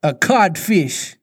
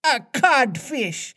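First: Slow, slightly raised, stunned echo; taken-aback captain, slow; blank echo. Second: Very high, drawn-out insult; squeaked-up mimic of a pirate; mocking voice. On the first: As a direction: repeat it blankly, drawn out. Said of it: "Hook echoed blankly". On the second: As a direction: taunt him high and slow. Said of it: "replied the". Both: A narrator's reading.

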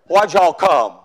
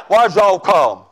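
First: A lightly voiced Southern deacon with a Southern accent. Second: Put-on broader Southern accent with a laugh in it. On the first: Deacon questioning a kneeling young man, mild Southern accent. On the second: Preacher repeating the deacon's question, laughing Southern accent. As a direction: lay the Southern accent on thicker while laughing. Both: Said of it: "I don't speak Southern".

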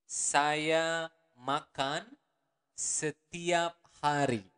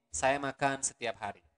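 First: Each word of Saya makan setiap hari slow and spaced. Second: Said in the usual way. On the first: Shown as a demonstration. Teacher to learners, slow model sentence. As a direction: spell the sentence out slowly. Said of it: "Or the normal speed would be". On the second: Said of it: "the normal speed would be".

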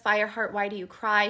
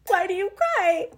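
First: Lightly voiced tender mother; mother's gentle voice. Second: High-pitched mock sobbing read; imitated tearful reading. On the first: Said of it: "she hears her mother's voice". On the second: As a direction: act out bawling while reading aloud. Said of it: "I was, just, like, cry".

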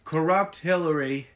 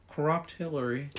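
First: Louder, punchy Trump rally voice; loud Trump impression. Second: Trump impression. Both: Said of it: "You just have to channel".

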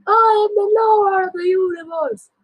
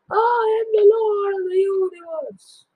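First: High crying boast; cling to pride through the pain; wailing boast. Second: High, crying shouted boast. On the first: Wounded father taunting sons, high wailing. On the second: Wounded father shouting at sons, crying out. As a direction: bellow it desperately. Repeated louder. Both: Acted.

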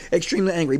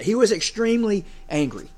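First: Extremely punched and falling; stress on Extremely. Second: Leaning on extremely angry; emphatic. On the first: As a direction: repeat it for weight, hitting Extremely. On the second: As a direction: savour the phrase. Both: Real, not acted. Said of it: "I like that word better".

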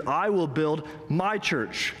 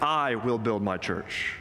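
First: "my" lifted high and drawn out; emphatic "my church", higher and deliberate; stress on my. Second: "I" stressed and drawn out, the rest falling away; "I" carries the main emphasis, ending on a fall. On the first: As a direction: slowly punch "my" to claim ownership. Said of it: "But note too, he says". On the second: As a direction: slowly lean on "I" as the one doing it. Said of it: "notice who's doing the building". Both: Shown as a demonstration.

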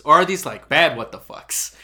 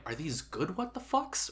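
First: Loud, heavy stress on "bad", falling at the end; questioning bad reading. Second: Slow, softer, higher, rising on "good what the fucks"; questioning good reading. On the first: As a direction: punch "bad what the fucks" and let it drop. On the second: Acted. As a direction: ask "good what the fucks" lightly, lifting the pitch at the end. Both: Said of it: "I wasn't sure where you were actually leaning".

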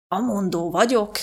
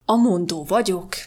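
First: Slow, lightly voiced heavy man, admiring; a hint of a stout man savouring the thought; lightly voiced stout landlord, slow and admiring; admiring Mr Harris. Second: Mr Harris. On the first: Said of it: "mondta mister Harris csodálattal". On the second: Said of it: "mondta végre". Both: A narrator's reading.

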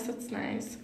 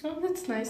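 First: Whispered. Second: Said in the usual way. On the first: Real, not acted. Repeats compliment, second time whispered.

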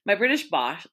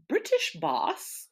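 First: Said in the usual way. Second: Put-on high, slow posh British accent on British boss; a camp posh British accent, stretched slowly. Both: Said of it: "posh British accent".

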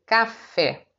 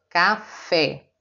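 First: Café with fé stronger than ca; stress on FÉ. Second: Final syllable stressed. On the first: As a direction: lean on the last syllable fé. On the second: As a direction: hit fé hard. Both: Shown as a demonstration. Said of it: "O fé é mais forte que o K".

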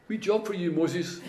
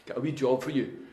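First: A lightly higher, casual voice of God handing out a task; offhand, like asking a small favour; God's call, voiced higher. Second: Said in the usual way. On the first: God calling Moses to a wee job, breezy and higher. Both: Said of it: "and then God goes".

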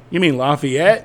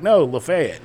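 First: LAFAYETTE said "lah-fee-ET"; French-style correction. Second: LAFAYETTE said "luh-FAY-it"; higher insistent no, then Lafayette stressed on FAY; local pronunciation. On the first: Newcomer corrects a local, Lafayette as "lah-fee-ET". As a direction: ask with Lafayette ending in a stressed ET. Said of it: "Spell it for me". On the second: Local corrects the newcomer, Lafayette as "luh-FAY-it". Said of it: "they're like". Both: Retold or imitated.

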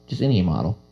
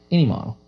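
First: Said in the usual way. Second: "Any" repeated higher with emphasis; stress on any. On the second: Real, not acted. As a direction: hit "Any" hard and high.

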